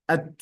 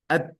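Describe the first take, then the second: First: The final t is released with only a puff of air. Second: The same.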